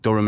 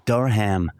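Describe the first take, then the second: First: Said in the usual way. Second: Durham said American-style with a full DUR-HAM; mock American Durham, both syllables sounded out; American tourist pronunciation. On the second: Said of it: "there's a lot of Americans".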